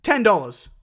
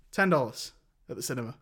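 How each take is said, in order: First: Put-on higher, louder American accent. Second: Said in the usual way. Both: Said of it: "I did American".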